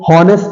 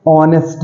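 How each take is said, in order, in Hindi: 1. शुरू में h बोला जाता है। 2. शुरू में h साइलेंट होता है। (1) "हॉनेस्ट नहीं है" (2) "एच साइलेंट हो जाता है"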